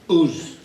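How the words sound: It is said with a short Yorkshire vowel. This is how the speaker naturally talks at home. The speaker calls it wrong. "Yorkshire has very short vowels. I used to say"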